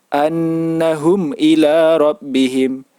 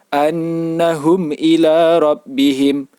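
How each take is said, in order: The two takes are said the same way.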